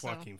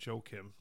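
First: The name begins with a W-like sound. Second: The name begins with a hard J sound. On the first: The speaker calls it right. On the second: The speaker calls it wrong.

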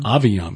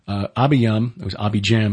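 First: The name is said with V and Y sounds. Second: The name is said with B and J sounds. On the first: This follows the original Hebrew pronunciation. "B to V, J to Y" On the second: This follows the English spelling. "is how it looks"

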